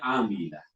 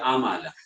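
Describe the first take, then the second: First: The second vowel is 'i'. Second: The second vowel is 'a'. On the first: The speaker calls it right. "Bacanya amilah" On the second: The speaker calls it wrong. "jangan baca amalah"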